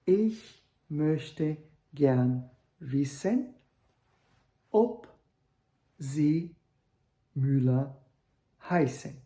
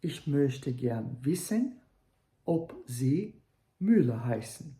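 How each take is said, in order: First: Frase lenta com ob destacado, alto e agudo; ênfase no ob. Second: Said in the usual way. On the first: Shown as a demonstration. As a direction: marque bem o ob. (pergunta indireta com o ob acentuado) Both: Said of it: "Sem colocar o ponto de interrogação no final".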